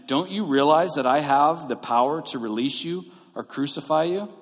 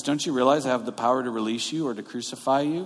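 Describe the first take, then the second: First: Measured, emphatic retold demand; lightly acted show of authority. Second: Quick retold tough talk; acting tough. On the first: Pilate asserting his power over Jesus, mildly demanding. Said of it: "Pilate demanded". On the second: Pilate trying to look powerful before Jesus, acting tough. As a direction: rattle off a mock-tough threat. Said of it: "Pilate's trying to act tough".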